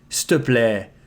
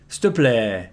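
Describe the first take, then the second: First: The start is contracted to 's'te'. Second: The start is contracted to 's'te'.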